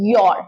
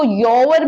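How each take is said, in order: First: "your" as one syllable, yor; correct pronunciation of "your". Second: "your" stretched into two syllables, yo-wer; wrong pronunciation of "your". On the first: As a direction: say "your" as a single open YAW sound. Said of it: "ये होता है". ("your" को एक ही हिस्से में, यॉर बोलें) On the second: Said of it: "इसको your मत बोलिए". ("your" को दो हिस्सों में, यो-वर बोलें) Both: Shown as a demonstration.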